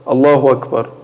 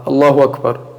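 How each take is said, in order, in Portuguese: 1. A hamza antes de 'Akbar' é omitida. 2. A hamza antes de 'Akbar' é omitida.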